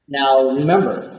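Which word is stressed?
remember. The stress falls on remember, not now.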